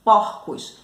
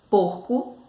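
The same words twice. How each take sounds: First: "porcos" with an open o, PÓR-cos, louder; teacher showing the open o of plural "porcos". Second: "porco" with a closed o, PÔR-co; teacher showing the closed o of singular "porco". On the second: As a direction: keep the o of "porco" tight and closed. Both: Shown as a demonstration. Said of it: "há uma diferença ... quando tá no singular ou no plural".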